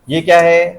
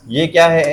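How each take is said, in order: Both takes have the same delivery.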